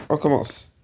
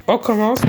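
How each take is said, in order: First: Said in the usual way. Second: Much higher, bright sing-song lift; a sudden high-pitched "let's go"; chirpy restart. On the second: Acted. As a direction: pop it up high like a cheerful kickoff. Repeats phrase, second take higher.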